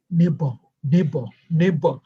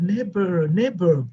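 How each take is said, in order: First: "Neighbor" with a dropped final R; puzzled repeating. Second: "neighbor" with an American final R; practised American pronunciation. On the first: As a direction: puzzle over "Neighbor" in a thick accent, R left off. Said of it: "she kept, you know, her mouth". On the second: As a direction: try out "neighbor", sounding the R at the end. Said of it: "I played with that word". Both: Retold or imitated.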